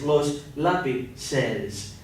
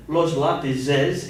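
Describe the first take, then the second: First: "lápices" very slowly, split as lápi-ces; "lápices" drawn right out to show the C; corrected C plural. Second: "lápices" drawn out as if it kept its Z; "lápices" slowly, as the mistaken Z plural; spelt with Z. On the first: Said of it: "So instead of". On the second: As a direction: say "lápices" slowly, breaking it as lápiz-es. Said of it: "you also have to change that Z to a C". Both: Shown as a demonstration.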